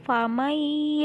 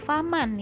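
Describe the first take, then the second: First: The n sound merges into the y. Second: The n sound is kept before the y. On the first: The speaker calls it right. "langsung dimasukkan ke huruf iya. Iyanya harus terdengar" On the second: The speaker calls it wrong. "bukan faman ya"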